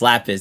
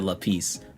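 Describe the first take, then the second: First: The second syllable has a short vowel. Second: The second syllable has a long vowel. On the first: This is the correct name of the item. The speaker calls it right. "It's lapis" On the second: This is how someone else said it. The speaker calls it wrong.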